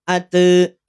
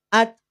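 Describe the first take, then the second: First: The t is followed by a trailing vowel. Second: The t is cut off with no vowel after. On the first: The speaker calls it wrong. "tidak ate" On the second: The speaker calls it right. "berarti selesai juga suaranya"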